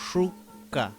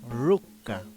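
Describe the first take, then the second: First: The word begins with an sh sound. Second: The word begins with an r sound. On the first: This is how it is said in the Huilliche region. "Shuka es la pronunciación en Tsesungun" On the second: This is how it is said in other regions. "En otros territorios se pronuncia ru- ruka"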